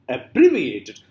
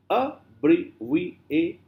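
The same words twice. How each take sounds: First: "Abbreviated" with a loud punch on bre; demonstrated pronunciation. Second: "abbreviated" very slowly as a, bre, vi, a, ted; syllable by syllable. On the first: Teacher showing how to pronounce this, firm demonstration. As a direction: say "Abbreviated" as a whole word, bre strongest. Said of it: "how do you pronounce this?". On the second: Teacher counting five syllables, slow syllable by syllable. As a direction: break "abbreviated" into five spaced beats. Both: Shown as a demonstration.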